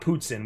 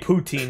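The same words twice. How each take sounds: First: The word has a non-Americanized pronunciation. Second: The word has an Americanized pronunciation. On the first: This is how Americans do not say it. "not poutine" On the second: This is how Americans say it.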